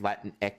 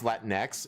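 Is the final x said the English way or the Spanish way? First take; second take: Spanish; English. First: The final x is said the Spanish way. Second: The final x is said the English way. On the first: The speaker calls it right. "if you know the Spanish language, it's actually pronounced Latin X" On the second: The speaker calls it wrong.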